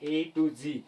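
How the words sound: The last letter is pronounced zee. This is the American usage. "American English में इसको क्या पढ़ा जाता है, जी पढ़ा जाता है"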